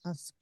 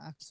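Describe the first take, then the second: First: The k sound comes after the s. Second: The k sound comes before the s. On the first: The speaker calls it right. "এটা কি হবে আস আস্ক" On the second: The speaker calls it wrong. "অনেকে আক্স বলে এটা আক্স হবে না"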